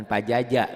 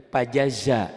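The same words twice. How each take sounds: First: "pajaja" with J in place of Z; wrong J sound. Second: "pajaza" with a clear "za" ending; "pajaza" buzzed on Z, not J; correct Z sound. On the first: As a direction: end "pajaja" on a hard "ja". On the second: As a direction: make the last consonant of "pajaza" a Z. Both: Shown as a demonstration. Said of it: "bukan pajaja gitu ya".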